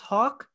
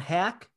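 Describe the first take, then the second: First: The vowel is long, as in 'saw'. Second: The vowel is short, as in 'cat'. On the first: He has earned the proper name. The speaker calls it right. "it is Matt pronounced Hawk" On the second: He has not yet earned the proper name. The speaker calls it wrong. "I'm going to call him Hack until he earns Hawk"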